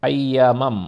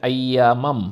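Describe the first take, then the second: The two takes are said the same way.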